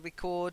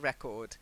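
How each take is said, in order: First: The stress falls on the second syllable. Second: The stress falls on the first syllable. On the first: It is the verb. The speaker calls it right. "That's the verb" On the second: It is the noun. The speaker calls it wrong. "not a record"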